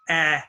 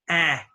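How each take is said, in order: No difference in how they are said.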